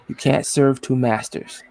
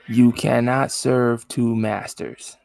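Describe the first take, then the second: First: It is said at a normal pace. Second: It is said slowly and deliberately.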